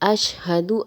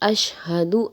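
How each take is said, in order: No difference in how they are said.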